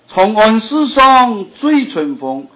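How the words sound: The line is read in Hakka Chinese. The speaker calls it right. "你用客家话听看看"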